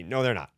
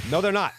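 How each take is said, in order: First: Said in the usual way. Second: Higher and louder repeat of No, they're not; emphatic repeat. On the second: Real, not acted. Insisting to the co-host the fans won't attack, emphatic.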